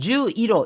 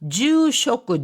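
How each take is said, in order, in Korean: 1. juiro로 읽습니다. ju로 시작합니다. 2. jushoku로 읽습니다. ju로 시작합니다. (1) "이렇게 하지 않고" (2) "이렇게 하지 않고"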